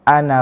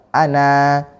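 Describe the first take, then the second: First: The final vowel is short, running into the next word. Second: The final vowel is long, with a stop after it. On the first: The reading continues without stopping. "kalau kita membaca wasol, membaca dengan menyambung, nggak dianggap, nggak dibaca" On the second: The reading stops on this word. "kalau kita wakof, maka dianggap, dibaca"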